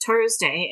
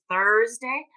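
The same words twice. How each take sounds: First: "Thursday" pronounced Tursday, hard T at the start. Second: "Thursday" drawn out with a clear TH at the start; pointed TH correction. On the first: Shown as a demonstration. Instructor imitating a learner, "Thursday" as Tursday. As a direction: swap the TH of "Thursday" for a T. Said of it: "because they can't make that sound". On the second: Retold or imitated. Imitating someone correcting a learner, "Thursday" with emphatic TH. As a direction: slowly stress the TH in "Thursday". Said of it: "What, what is this?".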